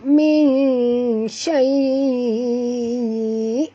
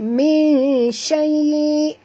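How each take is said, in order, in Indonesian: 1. Vokalnya dibaca dalam waktu lama. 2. Vokalnya dibaca dalam waktu singkat. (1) "Kalau nak baca enam" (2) "Pendek pun boleh. ... dua"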